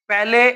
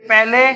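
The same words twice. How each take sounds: No difference in how they are said.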